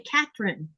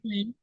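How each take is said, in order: First: The name is said with a plain t sound. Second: The name is said with a th sound.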